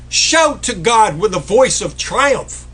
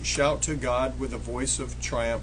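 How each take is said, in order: First: It is shouted loudly, with force. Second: It is spoken quietly, without force. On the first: The speaker calls it right. "No, shout it" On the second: The speaker calls it wrong. "don't read it the way that I've heard read so many times"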